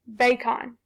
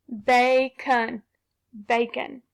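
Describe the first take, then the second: First: Bacon with a full O, bay-con; wrong vowel. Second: Bacon with uh, bay-cun; schwa sound. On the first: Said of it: "Did that sound right". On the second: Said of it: "let's try that schwa". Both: Shown as a demonstration.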